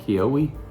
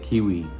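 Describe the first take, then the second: First: It is not pronounced like the fruit. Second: It is pronounced like the fruit. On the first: The speaker calls it wrong. "I was calling it Kiwi" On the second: The speaker calls it right. "it's like kiwi, like the fruit"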